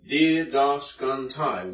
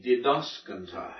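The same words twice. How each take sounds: First: "didaskantai" slowly split into di, das, kan, tai; syllable by syllable. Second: "didaskantai" stressed on das; accent on antepenult. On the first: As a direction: sound out each syllable of "didaskantai". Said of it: "One, two". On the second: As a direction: say "didaskantai" as one word, leaning on DAS. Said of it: "put it on the antepenult". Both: Shown as a demonstration.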